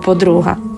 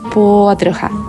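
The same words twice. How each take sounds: First: The stress falls on the second syllable. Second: The stress falls on the first syllable. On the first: The speaker calls it wrong. "а не подруга" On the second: The speaker calls it right. "Ти подруга"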